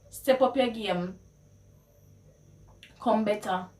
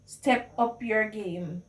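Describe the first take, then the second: First: Challenging Patois; Jamaican Patois. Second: Said in the usual way. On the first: Shown as a demonstration. Challenging a friend to improve, in Jamaican Patois. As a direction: push them to do better in Patois. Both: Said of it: "how you would translate".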